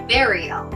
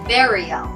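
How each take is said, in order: First: The first syllable sounds like the word 'bury'. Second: The same.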